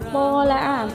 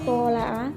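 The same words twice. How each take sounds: First: The vowel is held long. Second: The vowel is cut short. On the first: "Misalnya tola'a" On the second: "maka dibaca tola'a"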